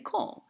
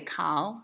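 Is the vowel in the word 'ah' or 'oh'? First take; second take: oh; ah. First: The vowel is a rounded 'oh' sound. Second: The vowel is an open 'ah' sound. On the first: "we say kol" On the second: "none of you say kal"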